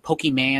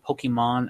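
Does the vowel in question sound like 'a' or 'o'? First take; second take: a; o. First: One vowel is pronounced like an 'a' sound. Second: One vowel is pronounced like an 'o' sound. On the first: The speaker calls it wrong. "some people say like Pokemon ... where do you see the A?" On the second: The speaker calls it right. "It's an O"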